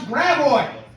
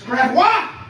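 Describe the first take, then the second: First: The name is said with a local American pronunciation. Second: The name is said with a French pronunciation. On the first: This is how locals say it. The speaker calls it wrong. "with how we pronounce Graboid" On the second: This is how the original language says it. The speaker calls it right. "It's Gravois"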